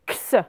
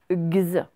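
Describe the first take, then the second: First: It is voiceless, a k followed by s. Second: It is voiced, a g followed by z. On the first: "C'est comme si, en fait, on avait le que avec le se" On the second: "C'est comme si on avait un g et un z"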